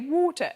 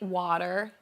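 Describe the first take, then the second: First: It is said in a British accent. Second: It is said in an American accent.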